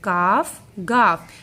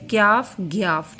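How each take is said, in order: First: "काफ, गाफ" with no y glide; correct letter names. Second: "क्याफ, ग्याफ" with a y glide after each first consonant; children's wrong names. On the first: Teacher correcting some children, clean "काफ, गाफ". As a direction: say "काफ, गाफ" as kaaf, gaaf, plain long aa. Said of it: "ना तो ये क्याफ है". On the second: Teacher quoting some children's mistake, "क्याफ, ग्याफ" with added y. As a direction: say "क्याफ, ग्याफ" as kyaaf, gyaaf. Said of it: "कुछ बच्चे ये भी याद कर लेते हैं". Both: Shown as a demonstration.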